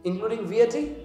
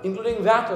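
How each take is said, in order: First: VAT is spelled out letter by letter. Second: VAT is said as one single word.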